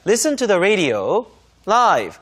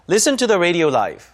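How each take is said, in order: First: A pause comes before a separately stressed 'live'. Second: 'Live' is joined smoothly to the preceding words. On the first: It means listening to the radio broadcast in real time. The speaker calls it right. "이렇게 독립적인 강세를 주면서 끊어 읽어줘야" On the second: The final word sounds meaningless. The speaker calls it wrong. "이러면 아무 의미가 없는 단어처럼 들리고요"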